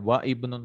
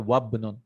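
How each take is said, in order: First: The initial vowel of the second word is pronounced. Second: The words join and the initial vowel is dropped. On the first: The speaker calls it wrong. "you don't say wa ibnun" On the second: The speaker calls it right. "we'll say wabnun"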